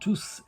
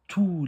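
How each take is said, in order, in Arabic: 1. تنتهي الكلمة بصوت s مسموع. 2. تنتهي الكلمة بدون أي صوت s.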